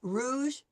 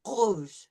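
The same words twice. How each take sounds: First: "rouge" with a front-of-mouth English R. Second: "rouge" with a throaty French R; French uvular R. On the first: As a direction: say "rouge" with R at the palate. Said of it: "so, English". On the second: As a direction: make the R in "rouge" at the back of the throat. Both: Shown as a demonstration.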